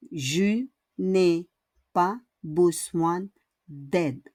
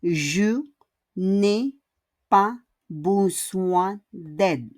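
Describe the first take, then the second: First: Said in the usual way. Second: Each word spaced out slowly. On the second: Shown as a demonstration. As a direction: say it slowly for the learners. (dahan-dahan, isa-isang salita) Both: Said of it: "And the last is ne pas again".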